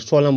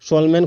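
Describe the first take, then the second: First: The final n sound is silent. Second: The final n sound is pronounced. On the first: The speaker calls it right. "सोलम बोलिएगा" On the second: The speaker calls it wrong. "सोलमैन कोई नहीं बोलिएगा"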